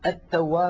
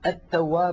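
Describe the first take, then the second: First: The l merges into a doubled t sound. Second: The same.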